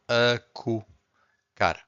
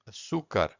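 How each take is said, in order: First: The first consonant is a K sound. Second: The first consonant is an S sound. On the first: The speaker calls it wrong. "So here you have a que sound" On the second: The speaker calls it right. "this is the right way"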